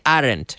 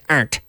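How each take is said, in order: First: The word is said with two syllables. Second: The word is said with one syllable. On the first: The speaker calls it wrong. "We don't say aren't" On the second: The speaker calls it right. "aren't is is one syllable"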